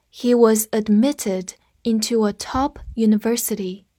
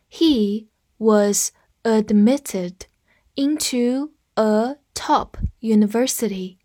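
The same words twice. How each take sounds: First: Said in the usual way. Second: Word by word, slowly, for learners to repeat; slow read-along. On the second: Shown as a demonstration. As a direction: read slowly with small gaps between words. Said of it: "再来跟我读一遍". (慢速跟读，一词一顿)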